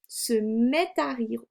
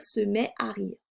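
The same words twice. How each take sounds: First: "Se met à rire" with the t of "met" sounded into "à"; liaison. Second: "se met à rire" with a silent t in "met"; no liaison. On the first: Teacher shows the prettier reading, "met à" linked by a t. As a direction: link it slowly as "met-t-à". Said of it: "Là, je vais faire une liaison". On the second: Teacher shows the less pretty reading, "met à" without liaison. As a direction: keep "met" and "à" unlinked, no t between. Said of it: "C'est plus joli". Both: Shown as a demonstration.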